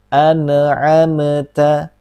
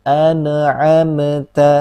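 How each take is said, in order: Both takes have the same delivery.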